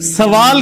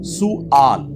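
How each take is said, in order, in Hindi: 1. पहला अक्षर 'sa' है, इसे sawaal की तरह बोला जाता है। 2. पहला अक्षर 'su' है, इसे su'aal की तरह बोला जाता है। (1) "सवाल के ऊपर जबर है उर्दू के अंदर जो हम बोल रहे होते हैं" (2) "सीन पे पेश, वाओ के बाद वो जो अलिफ है वो हमजा उसके ऊपर है"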